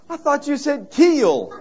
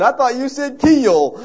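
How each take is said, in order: First: High, slow Southern drawl on "keel"; a Georgia drawl, stretching "keel"; deep Southern accent. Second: Higher, louder, slow Southern voice, laughing; a Georgia drawl through laughter, "keel" drawn out; deep Southern accent. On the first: Scared stranger at the beach, in a Southern drawl. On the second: Retelling the stranger's line, in a laughing Southern accent. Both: Retold or imitated. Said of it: "this deep southern Georgia or Carolinian accent".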